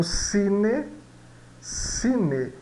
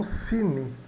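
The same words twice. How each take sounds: First: "cine" ending in a full closed E; slow, drawn-out "cine" with E as the last vowel; final E, not I. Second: "cine" ending in an I sound, like "cini"; wrong final I. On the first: Teacher showing final E as in Italian, Spanish pronunciation. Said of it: "no final das palavras soa E". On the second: Teacher showing what to avoid, final I. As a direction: say "cine" with the last vowel reduced to I. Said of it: "e não cine". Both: Shown as a demonstration.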